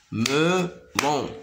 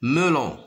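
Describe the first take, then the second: First: "Melon" in two separated beats; drawn-out, split "Melon" for learners; syllable by syllable. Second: Said in the usual way. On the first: Shown as a demonstration. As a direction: sound out "Melon" as me, pause, lon. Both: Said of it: "se compose de deux syllabes".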